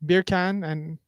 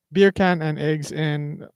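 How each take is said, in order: First: Said in the usual way. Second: Beer can and eggs in, drawn out slowly. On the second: Shown as a demonstration. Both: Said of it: "What is the words you supposed to say?".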